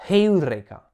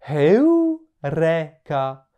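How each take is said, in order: First: "Heureka" in one quick go, breathed H, stressed first syllable then falling; prononciation d'époque hellénistique. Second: "Heureka" drawn out very slowly, aspirated H, pitch climbing on "eu" then falling; prononciation attique classique. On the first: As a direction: hit the start of "Heureka" louder, without drawing it out. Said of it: "aurait peut-être prononcé plus comme". (« Heureka » bref, H soufflé, début accentué par l'intensité) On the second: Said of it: "quelqu'un de l'époque de Platon". (« Heureka » très lent, H soufflé, première syllabe qui monte)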